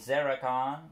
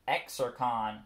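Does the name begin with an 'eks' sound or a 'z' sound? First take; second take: z; eks. First: The name begins with a 'z' sound. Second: The name begins with an 'eks' sound. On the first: "with the X pronouncing it as a Z" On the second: "how I pronounce the name"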